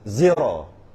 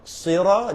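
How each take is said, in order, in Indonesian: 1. Kata ini diawali bunyi z. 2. Kata ini diawali bunyi s.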